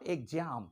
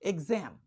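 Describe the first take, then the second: First: The middle sounds like a j sound. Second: The middle sounds like a z sound. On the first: The speaker calls it wrong. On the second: The speaker calls it right.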